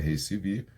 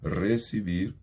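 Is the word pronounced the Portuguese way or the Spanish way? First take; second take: Portuguese; Spanish. First: It is pronounced with Portuguese sounds. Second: It is pronounced with Spanish sounds. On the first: The speaker calls it wrong. "não é receber" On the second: The speaker calls it right. "é receber"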